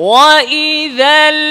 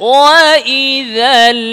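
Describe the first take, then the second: Both takes have the same delivery.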